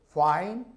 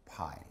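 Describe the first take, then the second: First: Fine with a drawn-out F, teeth on lip, rising; labiodental F. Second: Fine said as pine, short and falling; bilabial P. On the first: Teacher demonstrating the contrast, fine with a true F. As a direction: stretch fine, starting on an airy English F. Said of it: "제가 발음해 보겠습니다". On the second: Teacher showing the wrong sound, fine as low pine. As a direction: say fine with both lips, like pine, softly dropped. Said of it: "다른 발음이죠". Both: Shown as a demonstration.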